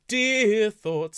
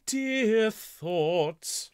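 First: The stress falls on the word dear. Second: The stress falls on the word thoughts. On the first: The speaker calls it wrong. "the important word is thoughts, not dear. So let's not have dear thoughts" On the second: The speaker calls it right. "Let's have dear thoughts"

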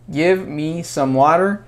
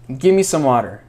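First: Give me is said as two full words. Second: Give me is blended into one word, gimme.

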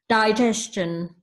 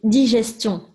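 First: The word is said with English pronunciation. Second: The word is said with French pronunciation. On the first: "In English is digestion" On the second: "So in French is digestion"

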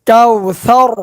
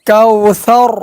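Both takes have the same delivery.

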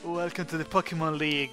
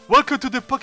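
First: It is said in a classy, posh voice. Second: It is said in a plain everyday voice.

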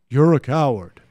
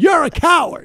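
First: It is said in a calm, normal voice. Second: It is yelled in a loud, raised voice.

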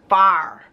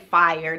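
First: The word is said with a flat 'far' vowel. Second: The word has the standard 'fire' vowel. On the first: This is the form the speaker's community uses. "We say far" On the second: This is the standard form the speaker avoids. "I don't say fire. That's like the proper"

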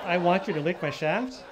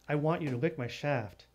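First: It is said indifferently, rising like a question. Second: It is said forcefully, with enthusiasm.

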